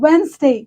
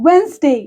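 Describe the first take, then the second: First: The first d is silent. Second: The same.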